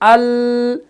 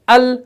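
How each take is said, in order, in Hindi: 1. आखिरी 'l' नरम है और खिंची हुई है। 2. आखिरी 'l' सख़्त है और छोटी कटी हुई है। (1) "सिफत रिखावत को दाखिल करेंगे ... इतना हम अगर इसको खींचेंगे" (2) "शिद्दत को लाएंगे ... इसके अंदर सख्ती आ गई"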